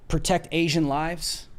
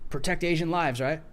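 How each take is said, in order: First: Said in the usual way. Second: Dry mocking slogan, flat fall; sarcastic. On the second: Shown as a demonstration. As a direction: say it with a sneer. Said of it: "I'm being sarcastic".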